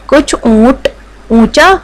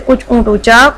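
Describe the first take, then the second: First: The phrase is read at a normal pace. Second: The phrase is read quickly and stumbles.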